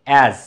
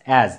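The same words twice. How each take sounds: The two takes are said the same way.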